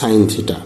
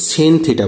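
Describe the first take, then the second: First: The first word is said as 'sign'. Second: The first word is said as 'sen'. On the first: The speaker calls it right. "উচ্চারণটা হবে সাইন theta" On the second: The speaker calls it wrong. "ভুল করে সেন theta বলো না"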